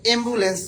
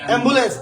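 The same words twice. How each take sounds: First: অ্যাম্বুলেন্স said as "embulens", with a tight first vowel; closed initial vowel. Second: অ্যাম্বুলেন্স opening on a wide "ae"; open initial vowel. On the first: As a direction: start অ্যাম্বুলেন্স with "e" instead of "ae". (অ্যাম্বুলেন্স-কে "এম্বুলেন্স" বলে উচ্চারণ) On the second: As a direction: say the first vowel of অ্যাম্বুলেন্স as in "cat". (অ্যাম্বুলেন্স শুরু খোলা "অ্যা" দিয়ে) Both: Shown as a demonstration. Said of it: "কোনটা".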